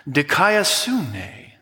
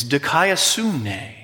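First: Dikaiosune broken into slow syllables, dee-kai-o-soo-nay; slow Greek syllables. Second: Said in the usual way. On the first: Shown as a demonstration. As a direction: spell out Dikaiosune slowly, syllable by syllable, for the room to copy. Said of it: "Can you say that with me?". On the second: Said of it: "Dikaiosune. (slow repeat)".

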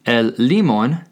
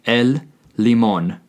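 First: Limón with the stress moved to the first syllable, LI-mon; wrong stress. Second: Limón with the stress on the last syllable, li-MON; careful model of el limón, second syllable stressed; correct stress. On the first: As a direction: say el limón mispronounced, leaning on LI. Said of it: "therefore it is not el limón". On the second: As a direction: say el limón landing firmly on the accented O. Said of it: "There is an accent over the O". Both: Shown as a demonstration.

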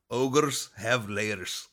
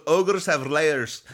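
First: Slow, drawn-out Scottish-tinged ogre; lightly voiced Shrek, very slow; a hint of a Scottish ogre accent, drawn out. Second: Loud, slow Scottish ogre voice; hammed-up Scottish ogre, louder and slower; Shrek voice. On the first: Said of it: "I'm sorry for my accent ... trying to sound like Shrek". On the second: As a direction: boom it out like Shrek with a Scottish burr. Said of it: "I'm trying to sound like Shrek".

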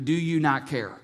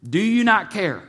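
First: Said in the usual way. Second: Urgent repeat. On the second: Retold or imitated. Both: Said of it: "because they asked him".

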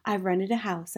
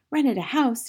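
First: Said in the usual way. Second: High, incredulous outburst; mild indignant shout. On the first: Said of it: "I said". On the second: A narrator's reading. Aunt exploding at the news, high indignant cry. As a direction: repeat it back in raised outrage. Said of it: "she shouted".

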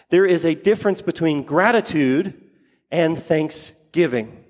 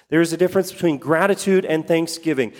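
First: Slowing down through "and thanksgiving"; slow emphatic statement. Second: Fast run-through, stress on "gratitude"; quick restatement. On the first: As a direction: draw out the contrast word by word. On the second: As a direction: toss it off quickly the second time. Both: Shown as a demonstration.

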